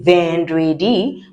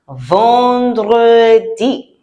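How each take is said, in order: First: The first vowel sounds like English 'en'. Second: The first vowel sounds like nasal 'ah'. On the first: The speaker calls it wrong. "we don't say vendredi" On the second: The speaker calls it right. "E N in French sounds ah"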